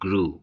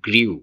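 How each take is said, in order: First: The vowel is a plain 'oo' sound. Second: A 'y' glide comes before the vowel. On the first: The speaker calls it right. "এর সঠিক উচ্চারণ হচ্ছে গ্রু" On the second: The speaker calls it wrong. "এর ভুল উচ্চারণ করি অনেক সময়"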